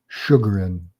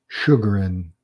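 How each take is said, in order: No difference in how they are said.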